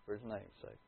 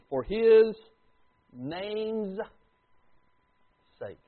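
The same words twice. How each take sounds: First: "For His name's sake." repeated much softer and lower; quiet echo. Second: "For His" louder, then "name's" and "sake." stretched out with long pauses; drawn-out emphasis. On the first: Preacher repeating the phrase to his congregation, hushed. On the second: Preacher stressing the key phrase to the congregation, slow and emphatic. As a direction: lean hard on "For His" and let "name's" and "sake." hang. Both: Shown as a demonstration. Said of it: "I want you to listen to this statement".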